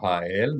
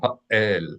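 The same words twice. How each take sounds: First: The vowels glide together with no break. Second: A glottal stop breaks the two vowels apart. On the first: The speaker calls it wrong. "instead of ha'el" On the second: The speaker calls it right. "You should hear clearly an uh sound"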